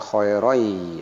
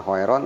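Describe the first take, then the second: First: The final n merges into a y sound. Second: The final n is pronounced clearly. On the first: The speaker calls it right. "tapi khairoi" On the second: The speaker calls it wrong. "bukan khairon"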